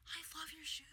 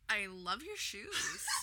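First: The tone sounds warm and sincere. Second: The tone sounds mocking and insincere. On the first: The compliment is honestly meant. The speaker calls it right. "I feel like a genuine way to be like" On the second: The compliment is really a put-down. The speaker calls it wrong. "I'd be like, damn, are you dragging my shoes?"

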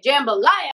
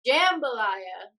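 First: It is said with excited emphasis. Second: It is said plainly, without excitement.

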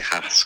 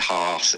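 First: The name is said in a northern English accent. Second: The name is said in a posh southern accent. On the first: "I just say Haas because I'm from Leeds" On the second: "Some people say Haas if you're from the south and posh"

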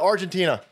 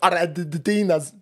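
First: Argentina is said with a plain English accent. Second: Argentina is said with an exaggerated Spanish accent. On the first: The speaker calls it right. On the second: The speaker calls it wrong.

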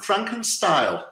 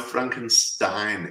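First: The name is said with altered sounds. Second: The name is said with its usual sounds. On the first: The speaker calls it wrong. "someone mispronouncing the name" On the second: The speaker calls it right.

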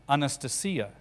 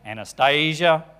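First: The stress falls where Russian speakers put it. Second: The stress falls where English speakers put it. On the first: The speaker calls it right. "the Russian name is Anastasia" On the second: The speaker calls it wrong. "What do we say?"

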